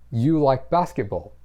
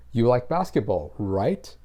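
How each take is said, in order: First: You like basketball said as a plain statement, falling at the end. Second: You like basketball falls, then right? rises; statement with a rising right? tagged on; tag question. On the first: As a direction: state it, don't ask it. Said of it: "That's the statement part". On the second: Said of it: "it becomes what is called a tag question". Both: Shown as a demonstration.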